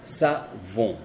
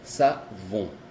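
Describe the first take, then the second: First: Savon stretched, nasal end; French savon, exaggerated. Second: Savon with a long nasal end; French savon, exaggerated. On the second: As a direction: savon said slow, sa-vo. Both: Shown as a demonstration.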